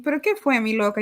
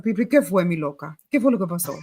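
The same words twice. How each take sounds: First: Said in the usual way. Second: Playful drop into a lower Spanish register; joking deep gossip voice; deeper voice. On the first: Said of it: "instead of saying". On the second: Shown as a demonstration. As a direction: slide lower on "mi loca", as if deep in the tea. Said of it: "deeper voice".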